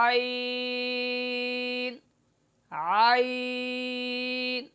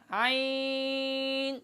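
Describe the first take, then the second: First: عین drawn out soft and clear from the mid-throat, very slow; correct soft ain. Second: عین said hard and through the nose, very slow; wrong nasal ain. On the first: Teacher demonstrating the correct عین to students. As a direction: let عین flow soft and unpressed. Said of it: "بغیر آواز دبائے نرم کر کے معروف پڑھنا". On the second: Teacher demonstrating the hard nasal wrong عین. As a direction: push عین harshly into the nose. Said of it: "سخت پڑھنا، ساتھ ساتھ اس کو ناک میں پڑھنا". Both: Shown as a demonstration.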